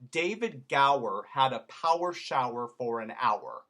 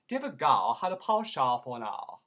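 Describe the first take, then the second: First: It is spoken in an American accent, R's pronounced. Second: It is spoken in a posh British accent, R's dropped. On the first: "I'm going to do it in America first" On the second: "leave off all those R's, ... make it into a diphthong"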